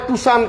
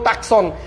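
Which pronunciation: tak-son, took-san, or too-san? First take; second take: too-san; tak-son. First: It is said too-san, with no k sound. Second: It is said tak-son, with a k sound. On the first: The speaker calls it right. "ওটার নাম হচ্ছে টুসান" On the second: The speaker calls it wrong. "কেউ টাকসন"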